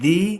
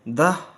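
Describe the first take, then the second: First: The vowel is a long 'ee' sound. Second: The vowel is a short 'uh' sound. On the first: The next word starts with a vowel sound. "We pronounce द as दी when it comes before a word starting with a vowel sound" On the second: The next word starts with a consonant sound. "We pronounce द एज द when it comes before a word starting with a consonant sound"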